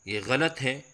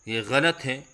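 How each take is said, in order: Both takes have the same delivery.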